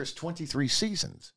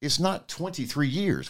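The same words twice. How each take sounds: First: Seasons drawn out, rising; stress on seasons. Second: Not pressed slow and falling; stress on not. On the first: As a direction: hold seasons long and lift it. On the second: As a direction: lean on not, say it slowly. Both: Real, not acted. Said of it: "We were very clear".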